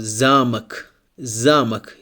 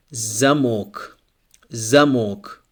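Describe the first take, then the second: First: "замок" as ZA-muk, first syllable stressed. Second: "замок" as za-MOK, second syllable stressed. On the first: Teacher models the word for castle, "замок" stressed ZA-muk. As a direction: hit the A in "замок", reduce the ending: ZA-muk. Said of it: "Here the stress is on letter A". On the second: Teacher models the word for lock, "замок" stressed za-MOK. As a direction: hit the full O in "замок": za-MOK. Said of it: "we have the stress on the letter O". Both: Shown as a demonstration.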